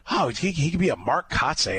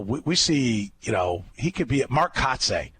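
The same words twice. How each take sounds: First: Mocking echo. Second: Said in the usual way. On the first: Host retelling the scout's comparison, mildly mocking it. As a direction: repeat the scout's line in a higher, mildly mocking voice. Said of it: "That's what it was". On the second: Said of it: "And they're like".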